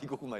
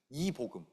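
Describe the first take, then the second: First: The name is said quickly and runs together. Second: The name is said slowly and clearly.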